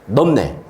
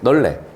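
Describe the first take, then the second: First: The middle consonant is a closed p sound. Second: The middle consonant is a smooth l sound. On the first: It takes more effort to say. The speaker calls it wrong. "에너지가 좀 많이 들어가" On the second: It is the easier pronunciation. The speaker calls it right. "발음이 편한 애로 가시면 돼요"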